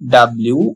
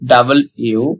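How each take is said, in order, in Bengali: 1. অক্ষরটির নাম 'dablew' এর মতো শোনায়। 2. অক্ষরটির নাম 'double you' এর মতো শোনায়। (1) "বাট এর উচ্চারণ ডাব্লিউ হবে না" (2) "এর সঠিক উচ্চারণ হবে ডাবল ইউ"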